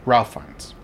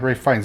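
First: The first name sounds like 'ralf'. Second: The first name sounds like 'rafe'. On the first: The speaker calls it wrong. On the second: The speaker calls it right.

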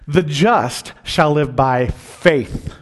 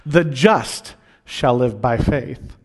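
First: The stress is on the word faith. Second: The stress is on the word just.

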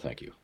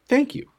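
First: It is mumbled quickly in a flat, perfunctory way. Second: It is said clearly with warm, sincere feeling. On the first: The thanks is given out of routine. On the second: The thanks is truly felt.

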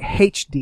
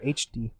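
First: The letter H begins with an h sound. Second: The letter H begins without an h sound.

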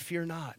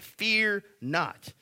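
First: It is said in a gentle, comforting tone. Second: It is said in a stern, rebuking tone.

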